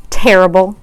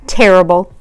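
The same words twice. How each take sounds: The two takes are said the same way.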